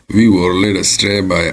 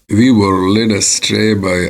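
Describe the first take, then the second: Both takes have the same delivery.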